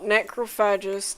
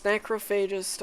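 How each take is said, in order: First: "necrophagist" with a short FADGE third syllable; pronunciation check. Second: "necrophagist" with a long FAY third syllable; alternative pronunciation. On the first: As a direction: say "necrophagist" as NEK-roh-FADGE-ist. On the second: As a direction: say "necrophagist" as NEK-roh-FAY-jist. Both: Shown as a demonstration. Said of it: "Is it not necrophagist".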